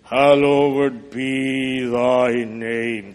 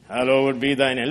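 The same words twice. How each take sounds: First: Solemn prayer. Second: Said in the usual way. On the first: Acted. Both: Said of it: "Our Father in heaven".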